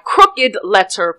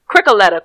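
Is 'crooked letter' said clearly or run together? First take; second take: clearly; run together. First: The two words are said fully and separately. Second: The two words are slurred into one reduced word. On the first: "Let me try that again" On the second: "for people who don't understand crickaletta"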